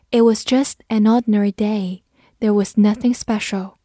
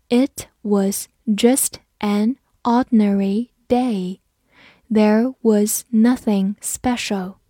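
First: Said in the usual way. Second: Slow, word-by-word teaching read; slow model reading. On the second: Shown as a demonstration. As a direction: read it slowly, pausing between words. (慢速逐词朗读) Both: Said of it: "我们慢读一遍".

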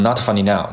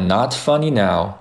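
First: "not funny now" rattled off evenly like a robot; quick, robotic "not funny now"; very fast. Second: "not funny now" taken at an unhurried pace; relaxed-tempo "not funny now"; slower. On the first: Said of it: "如果你读得很快的话". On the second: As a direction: give each word of "not funny now" more time. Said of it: "如果你读得比较慢". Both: Shown as a demonstration.

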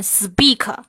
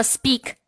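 First: "speak" drawn out, with an extra vowel after the k; exaggerated over-stressing. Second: Said in the usual way. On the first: Shown as a demonstration. Teacher shows learners what to avoid, "speak" over-stressed on every sound. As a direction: overdo every sound of "speak": "s-pea-kuh". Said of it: "我夸张一点是想要说明一个点". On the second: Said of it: "你不要把所有的音节都重读".

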